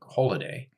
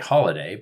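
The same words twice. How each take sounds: First: It is said with a British vowel. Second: It is said with an American vowel. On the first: "but in the Brits say more like holiday" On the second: "because we say holiday"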